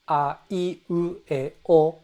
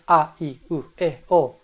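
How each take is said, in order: First: The vowels move up and down in a melody. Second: Each vowel is said on a flat, even pitch. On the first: The speaker calls it right. "there's pitch accent, there's a melody to it" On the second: The speaker calls it wrong. "It's not just"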